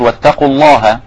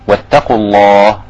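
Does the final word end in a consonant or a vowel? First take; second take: vowel; consonant. First: The last word ends with a short vowel. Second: The last word ends on a bare consonant. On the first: The speaker calls it wrong. "مش هتقول واتقوا الله وتقف كده خلاص، ليس من البلاغ" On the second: The speaker calls it right. "يبقى كده وقفت على الهاء"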